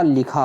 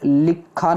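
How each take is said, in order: First: लिखा with a single light kh; no doubled consonant in लिखा; correct form. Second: लिखा with a doubled, held kh; wrong form. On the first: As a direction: say लिखा as li-khaa. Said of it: "होता है". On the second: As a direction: say लिखा as lik-khaa. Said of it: "नहीं होता". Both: Shown as a demonstration.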